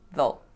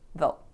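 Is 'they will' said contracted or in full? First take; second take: contracted; contracted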